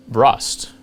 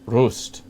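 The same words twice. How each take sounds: First: Rust said like the English word for corrosion; mispronounced Rust. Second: Rust with an "oo" vowel, like roost; corrected Rust. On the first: Host guessing at an Austrian wine town, mispronouncing Rust. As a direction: say Rust with a short "uh" vowel, as in dust. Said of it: "I did pronounce it wrong". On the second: Host repeating the wine town after checking, Rust as "roost". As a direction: say Rust the native way, rounded "oo" before the st. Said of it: "Okay, I did pronounce it wrong". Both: Real, not acted.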